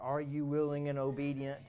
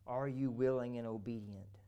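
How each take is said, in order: First: It is said at a louder volume. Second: It is said at normal, softer volume.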